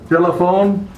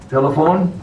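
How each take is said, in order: The two takes are said the same way.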